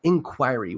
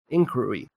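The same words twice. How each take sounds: First: "Inquiry" said clearly as "in-KWY-ree"; corrected pronunciation. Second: "Inquiry" slurred to "inkwuh-ee", R dropped; retry "Inquiry" and still lose the R; mispronounced retry. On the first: Host correcting himself, "Inquiry" as "in-KWY-ree". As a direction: sound out "Inquiry" with a full "kwy" and R. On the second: Host retrying a headline word, "Inquiry" fumbled as "inkwuh-ee". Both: Real, not acted. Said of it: "Why can't I say?".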